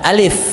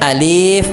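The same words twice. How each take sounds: First: The word is said quickly and short. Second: The word is said slowly and drawn out. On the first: The speaker calls it right. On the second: The speaker calls it wrong. "kayak Bapak ngajar anak kecil"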